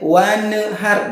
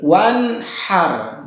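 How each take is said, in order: First: The n sound bounces before the h. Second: The n sound is held before a light h. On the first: The speaker calls it wrong. "jangan mantul di lafad nun sukun wanhar. Tidak boleh wanhar" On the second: The speaker calls it right. "Tahan. Wan kemudian haknya hak kecil"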